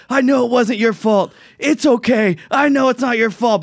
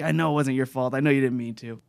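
First: High, drawn-out imitation of a player yelling; mock yell, pitched way up; retold yelling. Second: Soft, toned-down quote of a player; understated retold yelling. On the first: Retelling Bryce yelling at Blake Snell, retold yell. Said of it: "he's yelling at him". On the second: Explaining the friends' exchange, understated quiet retelling. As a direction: report the yelled words quietly. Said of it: "so he's yelling, but, like".

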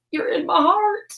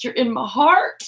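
First: Much higher, sing-song sweet. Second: Warm. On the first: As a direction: lift it up high and sweet. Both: Real, not acted.

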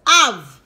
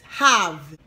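First: Have, H silent, Jamaican style; Patois have. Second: Have, H fully pronounced; English have. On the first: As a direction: have said as "ave", H dropped. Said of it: "it's pronounced have". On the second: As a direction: have with the H sounded, English style. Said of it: "this is pronounced have". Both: Shown as a demonstration.

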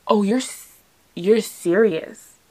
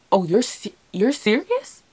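First: Halting, drawn-out and falling on "serious"; dawning realization. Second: Halting, pitch leaping up into a question; stumble, then ask "serious" high in disbelief; incredulous question. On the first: Girlfriend taking in her boyfriend's yes, slow stunned realization. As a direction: let "serious" sink in slowly, no question. Sinking in after he says yeah. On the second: Girlfriend realizing her boyfriend's proposal is real, high incredulous question. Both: Retold or imitated.

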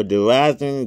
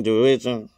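First: "derision" said as "de-RAI-zun", with a long I and a Z; "derision" read as "deraizen", unsure; first try at derision. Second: "derision" said as "de-RIDGE-un", with a short I and a J sound; "derision" fixed to "deridjen"; corrected derision. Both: Shown as a demonstration. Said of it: "Forgive me if I pronounce that wrong".

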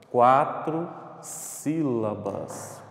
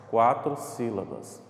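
First: "Quatro sílabas" drawn out very slowly; slow emphatic answer. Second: Said in the usual way. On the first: Shown as a demonstration. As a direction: stretch each word of "Quatro sílabas". Teacher stretches the answer, then repeats. ("Quatro sílabas" bem devagar, alongado)

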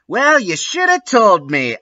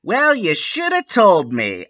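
First: Retort, bigger. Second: High snippy retort. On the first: Ebony retorting to Lupin again. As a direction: push it further, pitched up. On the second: Ebony retorting to Lupin. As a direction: snap it back pitched up. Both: A narrator's reading. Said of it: "I replayed".

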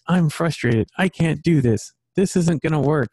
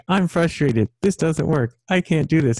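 First: Put-on higher, whiny little boy; imitating my son giving up; mock frustrated kid. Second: Higher, mock frustrated kid; imitating his son. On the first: Dad imitating his frustrated son, higher whiny. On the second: Dad repeating his son's words to him, higher and whiny. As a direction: echo the boy's whine back. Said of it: "you're talking like I was talking".

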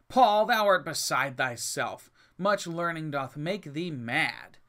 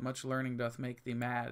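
First: Slow, loud rebuke from Festus. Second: Said in the usual way. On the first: Acted. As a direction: call it out slowly, loud and scornful. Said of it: "Festus said with a loud voice". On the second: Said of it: "people take this out of quote".

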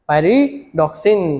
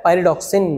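First: "pyridoxine" stretched very slowly, syllable by syllable; drawn out. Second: Said in the usual way. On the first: Shown as a demonstration. Teacher stretching the name so students memorise it. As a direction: drag "pyridoxine" out slowly with a rise at the end. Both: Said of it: "याद रखेंगे".

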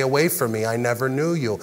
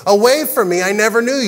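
First: Low, soft dismissal; quiet rejection. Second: Raised, forceful dismissal; stern rejection. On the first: God turning them away on Judgment Day, quiet and low. God's rejection voiced, second telling, subdued. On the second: God turning away those who boasted of miracles, stern and raised. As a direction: send them away in a higher, firm voice. God's rejection voiced, first telling. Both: Acted.

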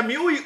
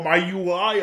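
First: "miui" said as mee-oo-ee; spelled-out-style MIUI. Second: "miui" said as my-you-eye; English-style MIUI. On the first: Host asking viewers how it is said, "miui" as mee-oo-ee. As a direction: say "miui" with Spanish vowels, mee-oo-ee. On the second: Host offering viewers the alternative, "miui" as my-you-eye. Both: Shown as a demonstration. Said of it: "¿se, se pronuncia miui o miui?".

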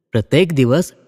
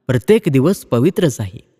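First: प्रत्येक repeated with stress, rising at the end; echoed stress on प्रत्येक. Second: प्रत्येक stressed, sentence falling to a close. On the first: Bhau repeating his point, stressing प्रत्येक again. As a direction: repeat प्रत्येक दिवस with a lift, as if to continue. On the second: Bhau calmly insisting that every day is holy, stressing प्रत्येक. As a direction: lean on प्रत्येक and let the line settle down. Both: Acted.

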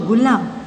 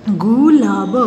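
First: Said in the usual way. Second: gulab drawn out sound by sound; syllable by syllable. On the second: Shown as a demonstration. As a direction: stretch each part of गुलाब. (गुलाब को तोड़-तोड़ कर) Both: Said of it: "properly बोलना है".

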